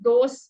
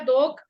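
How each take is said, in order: First: The word ends with a hushing 'sh' sound. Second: The word ends with a throaty 'kh' sound. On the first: The speaker calls it wrong. "नहीं तो कम से कम दोष पढ़ना" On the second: The speaker calls it right. "वैसे तो दोख पढ़े तो और भी सुंदर लगेगा"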